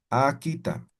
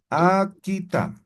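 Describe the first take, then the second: First: Said in the usual way. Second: Akita stretched slowly with a falling end; slow, careful akita. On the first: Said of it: "repeats word at normal pace". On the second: Shown as a demonstration. Teacher modelling akita slowly for the class. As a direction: draw out akita for learners to copy. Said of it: "teacher models new vocabulary".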